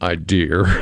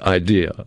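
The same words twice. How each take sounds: First: The word ends with an added R sound. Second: The word ends in a plain vowel, no R. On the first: The speaker calls it wrong. "in New England, that's how we used to say it" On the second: The speaker calls it right. "there is no R on the end of idea"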